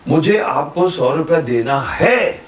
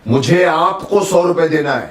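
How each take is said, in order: First: The stress is on है. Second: The stress is on आपको.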